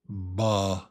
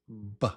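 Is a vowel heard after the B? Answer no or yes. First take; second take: yes; no. First: The B is followed by an added vowel. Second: The B is a short pop without a vowel. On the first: The speaker calls it wrong. "Not B" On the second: The speaker calls it right. "but just B. Short and quick"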